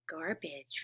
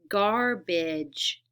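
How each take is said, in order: First: The word is said smoothly as one unit. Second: The word is split into separate parts. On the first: "put it back together" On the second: "I'm going to split a word"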